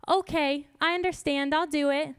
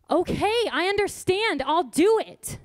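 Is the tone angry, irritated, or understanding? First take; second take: understanding; irritated. First: It sounds calm and understanding. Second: It sounds irritated.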